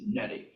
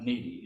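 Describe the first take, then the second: First: The name is said as Nettie, not needy. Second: The name is said like the word needy. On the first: The speaker calls it right. "it is Nettie" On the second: The speaker calls it wrong. "it is not Needy"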